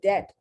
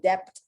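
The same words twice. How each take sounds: First: No B sound is heard before the t. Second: A B sound is heard before the t. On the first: The speaker calls it right. "I say debt" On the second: The speaker calls it wrong. "I know I don't say debt"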